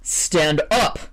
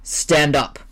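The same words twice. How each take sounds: First: Sharper order. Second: A curt, commanding order; firm order. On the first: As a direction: bark it now, patience gone. Editor repeats order, angrier. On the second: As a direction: tell him flatly to get up. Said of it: "ordered Waldemar". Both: Acted.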